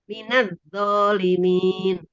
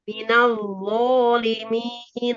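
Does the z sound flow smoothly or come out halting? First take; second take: halting; flowing. First: The z sound comes out halting and choked off. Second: The z sound flows smoothly with continuing voice. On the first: The speaker calls it wrong. "bukan begini, Bu. ... tersidah" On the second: The speaker calls it right. "Ini mengalir. Suaranya tetap ada"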